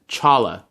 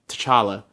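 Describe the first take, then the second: First: The name starts without any T sound. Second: The name starts with a soft T sound. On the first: "just Chala" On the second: "with the soft T, just T'Challa"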